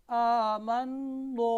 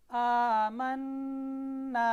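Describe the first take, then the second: First: "आमन्नो" slow and loud, ending rounded to a heavy "नो"; wrongly thickened alif. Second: "आमन्ना" drawn out slowly, final alif kept thin. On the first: Teacher shows students the mistake to avoid, "आमन्नो" with heavy rounded ending. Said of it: "ऐसे नहीं पढ़ना". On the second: Teacher shows students how to read it, "आमन्ना" with thin alif. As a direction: recite "आमन्ना" slowly with a long light "ना", never rounded to "नो". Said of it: "अलिफ को भी बारीक पढ़ना है। देखिए मैं कैसे पढ़ता हूँ". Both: Shown as a demonstration.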